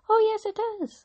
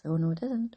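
First: High, shouted panto reply; panto crowd callback. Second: Panto villain reply. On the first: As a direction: call it back like a panto crowd. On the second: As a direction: answer back as the panto villain. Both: Pretend.

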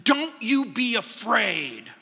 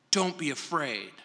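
First: "you" punched out in a slow, forceful "Don't you be afraid"; emphatic stress on YOU. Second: Said in the usual way. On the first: Shown as a demonstration. Preacher shows congregation the original emphasis, emphatic stress on "you". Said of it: "it's emphatic". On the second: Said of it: "The emphasis is on the word".

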